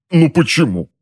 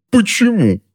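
First: Higher plaintive why; higher pained whine; whining. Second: Much higher strained wailing why; much higher anguished wail. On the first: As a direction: plead with the ceiling. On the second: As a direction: wail it, close to breaking. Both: A narrator's reading. Husband whining in pain.

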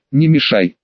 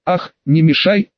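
First: Said in the usual way. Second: Lightly mocking "Ах", rising on "мешай"; mocking echo. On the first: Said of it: "спокойно ответил я". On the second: A narrator's reading. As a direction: throw "не мешай" back as a taunt, ending on a rise. Bully mockingly echoes the hero's words. (с лёгкой издёвкой передразнивая)

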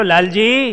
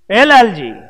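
First: Gentle call. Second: Second call, "એ Lalji" louder and higher, falling at the end. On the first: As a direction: call "Lalji" to wake him, lightly. (હળવો સાદ, "લાલજી" ઊંચા સૂરે) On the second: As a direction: call out "Lalji" to rouse him. (મોટેથી સાદ, "એ Lalji") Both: Retold or imitated. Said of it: "મહારાજે લાલજી ભગતને સાદ કર્યો".

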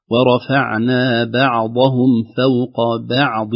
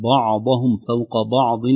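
First: Slow, with a thin ba in بعضهم and بعض; light ba. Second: بعضهم فوق بعض with the ba darkened; wrong heavy ba. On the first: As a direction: recite ورفعنا بعضهم فوق بعض slowly with light ba. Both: Shown as a demonstration. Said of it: "وليست".

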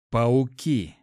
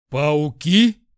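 First: A touch of a hiss, firmly voiced. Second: Loud startled squeal, rising question. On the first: Hero realizes what attacked the hyena, hissed. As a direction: hiss out the grim discovery, mildly. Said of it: "Прошипел". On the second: Lad jumps at hearing of spiders, squealed. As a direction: shriek it back in disbelief. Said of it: "взвизгнул Жюль". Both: A narrator's reading.

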